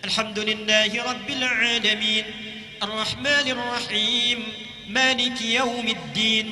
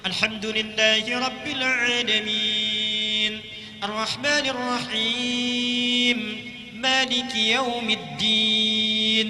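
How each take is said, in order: First: It is recited fast, with short vowels. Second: It is recited at a medium pace.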